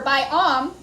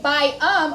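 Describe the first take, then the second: First: The second syllable has a short ah vowel. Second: The second syllable has an uh vowel. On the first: "we don't say bi-om. It's not a short O" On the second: "we don't say bi-um"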